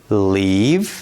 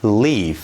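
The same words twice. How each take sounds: First: "leave" ending in a buzzed, voiced v; final voiced v. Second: "leaf" ending in an airy, voiceless f; final voiceless f. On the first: Teacher models for repetition, voiced v ending "leave". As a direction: say "leave" drawn out, closing on v. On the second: Teacher shows how to practise, voiceless f ending "leaf". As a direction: say "leaf" drawn out, closing on f. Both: Shown as a demonstration.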